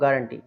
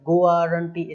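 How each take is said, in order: First: No 'u' sound comes after the g. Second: A 'u' sound comes after the g. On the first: The speaker calls it right. "हम इसको बोलेंगे" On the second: The speaker calls it wrong. "इस तरीके से नहीं बोलेंगे"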